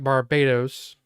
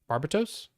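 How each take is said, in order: First: It sounds like the island name Barbados. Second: It sounds more like the word barbecue. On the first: This is how the narrator said it. "I pronounced it like Barbados" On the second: This is how the brother said it. "My brother pronounced it more like barbecue"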